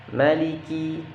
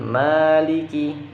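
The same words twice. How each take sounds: First: The first vowel after m is short. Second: The first vowel after m is drawn out long. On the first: The speaker calls it right. "dan mimnya pendek" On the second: The speaker calls it wrong. "bukan maliki"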